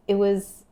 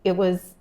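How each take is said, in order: Both takes have the same delivery.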